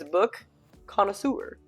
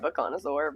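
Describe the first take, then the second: First: The ending sounds like the word connoisseur. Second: The ending sounds like the word dinosaur. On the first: The speaker calls it right. "But it's not. It's Book Connoisseur" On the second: The speaker calls it wrong. "I always say it like like a dinosaur"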